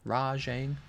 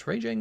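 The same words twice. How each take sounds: First: Rajang said RAH-zhang with a zh sound. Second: Rajang said RAY-jang with a j sound. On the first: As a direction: Rajang with an open ah and zh. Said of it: "People get so mad when I call him Rajang". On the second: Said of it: "when I call him Rajang". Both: Shown as a demonstration.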